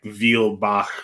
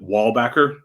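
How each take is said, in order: First: The name is said with a German pronunciation. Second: The name is said with an American pronunciation. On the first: This is the original form of the name. The speaker calls it right. "It's it's like Vielbach or th- like this like that excess Germany-ness" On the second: This is the family's adapted version of the name. The speaker calls it wrong. "our family pronounces it Wallbacker, like a wall and a back"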